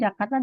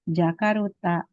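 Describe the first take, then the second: First: The r goes straight into the t. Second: An extra u vowel follows the r. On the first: This is the original Indonesian name. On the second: This is how Japanese speakers adapt the name.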